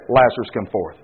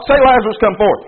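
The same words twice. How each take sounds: First: Much lower and softer, a grave summons; Jesus calling Lazarus. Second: Said in the usual way. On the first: Retold or imitated. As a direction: call him out low and solemn. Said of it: "So he said". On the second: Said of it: "look over at Peter and say".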